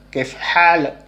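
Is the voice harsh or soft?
harsh. It is said in a harder, sharper way. "itu orang orang orang Mesir ya"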